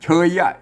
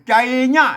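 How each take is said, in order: First: The word begins with a ch sound. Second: The word begins with a j sound. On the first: This is how other speakers read it. "เปิ้นอ่านเป็นเชยนะครับเชยยะ" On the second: This is how the local dialect reads it. "แต่ของเฮาเป็นอ่านเป็นใจยะ"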